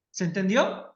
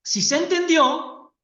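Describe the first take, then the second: First: "¿se entendió?" with pitch rising at the end of "entendió"; rising question tune. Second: "si se entendió" higher, louder and slow, stressing "entendió"; emphatic affirmation. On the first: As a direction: ask it, lifting the last syllable of "entendió". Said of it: "entre preguntar o afirmar". (pregunta con final ascendente en "entendió") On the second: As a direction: assert it slowly, leaning on "entendió". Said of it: "Fíjense que es el tono de voz". ("si se entendió" afirmado con énfasis, lento) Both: Shown as a demonstration.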